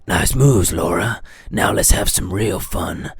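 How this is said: It is read in a gruff put-on character voice.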